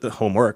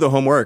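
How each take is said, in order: First: Homework is stressed on an unusual syllable. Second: Homework has its usual stress pattern.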